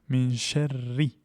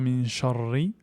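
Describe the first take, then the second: First: The r sound is light and thin. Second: The r sound is heavy and thick. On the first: The speaker calls it right. "Le ra est aminci" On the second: The speaker calls it wrong. "on ne lit pas min sharri"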